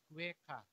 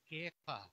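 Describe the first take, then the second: First: The word begins with a 'kw' sound. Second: The word begins with a plain 'k' sound. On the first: The speaker calls it wrong. "Pag binasa mo, kweka" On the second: The speaker calls it right. "Pero hindi naman kweka, kundi keka"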